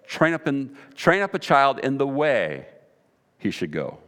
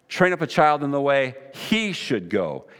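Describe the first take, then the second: First: The word way carries the emphasis. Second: The word he carries the emphasis. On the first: There is one proper path for children to follow. "we often read it with the emphasis on the word way" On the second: The path should suit each individual child. "let's read it with the emphasis on the word he"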